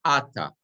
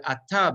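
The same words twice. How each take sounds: First: "ata" stressed on its first syllable, A-ta. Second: "ata" stressed on its final syllable, a-TA; stress on last syllable. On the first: Teacher showing the pausal form, front-stressed "ata". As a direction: hit the opening A of "ata". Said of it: "the accent falls on the first syllable". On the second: Teacher showing the normal form, end-stressed "ata". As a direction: put the weight at the end of "ata". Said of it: "the word ata becomes ata". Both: Shown as a demonstration.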